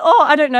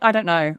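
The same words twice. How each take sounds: First: High, louder flustered stammer. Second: Said in the usual way. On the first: Retold or imitated. Guest retelling his flustered reply to the journalist, high and flustered. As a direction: play caught off guard, scrambling for words. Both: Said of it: "I was like".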